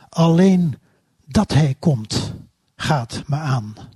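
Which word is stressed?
komt. The stress is not on the word me.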